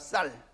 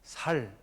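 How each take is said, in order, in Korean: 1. 첫소리 ㅅ은 된소리이고 세게 나요. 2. 첫소리 ㅅ은 평음이고 부드럽게 나요.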